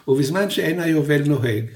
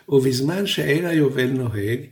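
Both takes have the same delivery.

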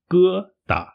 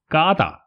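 First: The first syllable has a mid 'e' vowel. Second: The first syllable has an open 'a' vowel. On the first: The speaker calls it right. "它的发音是疙瘩" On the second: The speaker calls it wrong. "有些中国人会把它发音成嘎瘩，这个是不标准不正确的发音"

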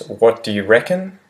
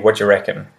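First: The words are said slowly and kept separate. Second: The words are said quickly and run together.

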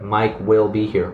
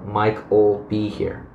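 First: The word will is said in full. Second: Will is shortened and joined onto the name. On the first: "but Mike will be here" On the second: "or Mike'll be here"

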